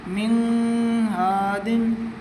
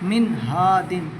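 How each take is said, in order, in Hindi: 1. n को नाक की गूँज के साथ रोका जाता है। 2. n साफ़ है, नाक की गूँज नहीं है। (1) "अगर गुन्ना करते तो नाक में आवाज़ आती" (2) "हमने इजहार किया, यानी गुन्ना नहीं किया"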